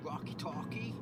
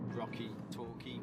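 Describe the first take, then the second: First: It is said in an American accent. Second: It is said in a British accent.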